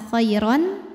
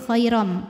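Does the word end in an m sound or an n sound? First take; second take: n sound; m sound. First: The word ends with a clear n sound. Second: The word ends with a nasal m sound. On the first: The speaker calls it wrong. "bukan khairon" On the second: The speaker calls it right. "tapi khairam"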